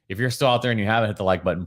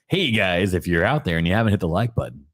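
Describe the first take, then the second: First: It is said in his normal speaking voice. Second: It is said in a put-on radio announcer voice.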